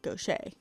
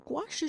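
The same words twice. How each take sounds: First: The word is said in a showy, fancy-sounding way. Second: The word is said in a plain, standard way. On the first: The speaker calls it wrong. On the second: The speaker calls it right.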